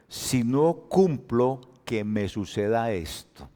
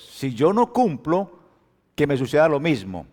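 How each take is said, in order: First: Juramento de Dios, despacio; voz de Dios, lenta y grave. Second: "no" marcado y alto, sin bajar; juramento de Dios enfático. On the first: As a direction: promesa solemne muy lenta, el final bajo y suave. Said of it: "Dios dice implícitamente". (Dios jura despacio, bajando al final) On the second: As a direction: Dios jura con fuerza, más firme. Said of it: "Mire lo que dijo Dios". (juramento firme, "no" subrayado) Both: Acted.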